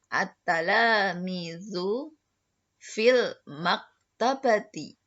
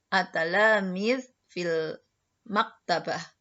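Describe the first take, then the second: First: Every word ending is pronounced with its vowel. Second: The word endings are cut off without vowels. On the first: "dibaca berharokat semua" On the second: "kalau disukunkan"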